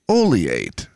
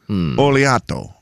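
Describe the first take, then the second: First: The word ends without a final 'o' vowel. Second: The word ends with a final 'o' vowel. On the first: "it's got an O on the end of it, but we don't say it" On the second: "it has an O on the end of it"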